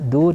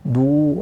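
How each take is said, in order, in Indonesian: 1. Suku kata "du" itu ringan dan tipis. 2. Suku kata "du" itu berat dan tebal. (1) "du tipis" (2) "du-nya ditebalkan... itu tidak boleh"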